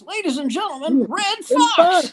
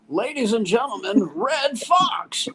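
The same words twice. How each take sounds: First: Much higher, louder showbiz intro; announcer brings him on again, bigger; announcer overplaying the introduction for an empty room; announcer call again. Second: Higher, rising announcer intro; mock announcer building to the name; announcer bringing on the comedian, a high showbiz call. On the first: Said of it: "The guy goes". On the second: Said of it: "the announcer goes".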